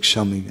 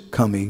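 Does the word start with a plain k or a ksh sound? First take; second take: ksh; k. First: The word starts with a ksh sound. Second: The word starts with a plain k sound. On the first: This is the Hindi pronunciation. "you'd say kshami" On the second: This is the Bengali Oriya pronunciation. "In Hindi you wouldn't say kami"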